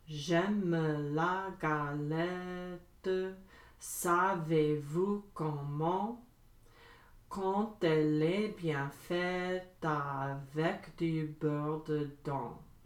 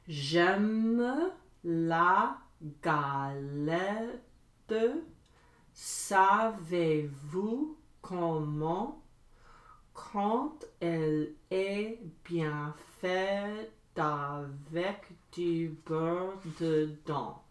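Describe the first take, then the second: First: It is said fast. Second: It is said slowly.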